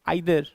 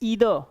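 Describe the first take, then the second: First: The first vowel is an 'eye' sound. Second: The first vowel is a long 'ee' sound. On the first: "British accent में क्या बोलते हैं?" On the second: "American accent में क्या बोलते हैं?"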